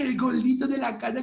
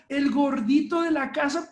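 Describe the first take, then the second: First: It is said in a babyish voice with dropped sounds. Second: It is said in a normal, clearly pronounced voice. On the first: Infantile talk that delays a child's pronunciation. The speaker calls it wrong. "Y nada que el gordito de la casa, cachetón. No, no, no, háblale bien" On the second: Affectionate talk that still models correct speech. The speaker calls it right. "háblale con amor, pero no como si te faltaran letras"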